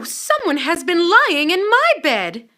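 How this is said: It is said in a middle-sized voice.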